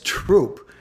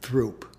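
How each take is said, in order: First: The word begins with a plain T sound. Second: The word begins with a TH sound. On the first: The speaker is from the local neighborhood. "someone says Troop, it's his way or her way of saying that they're from the neighborhood" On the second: The speaker is adapting to people from elsewhere. "they probably say Throop"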